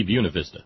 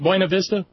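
First: "Buena" said as "BYOO-nuh"; "Buena" starting like "beauty"; Southern rendering. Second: Put-on "Buena" said as "BOY-nuh", questioning; "Buena" rhymed with "coin-a"; questioned pronunciation. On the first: Shown as a demonstration. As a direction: say "Buena Vista" as BYOO-nuh VIS-tuh. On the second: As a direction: ask it with "Buena Vista" as BOY-nuh VIS-tuh. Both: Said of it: "one of those obscure Southern renderings".

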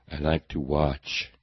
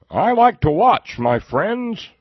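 First: Said in the usual way. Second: High, loud, drawn-out put-on voice; hammed-up mocking impersonation. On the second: Host mocking a pundit who likes to watch, hammed-up high voice. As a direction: blare it out as a mocking caricature.

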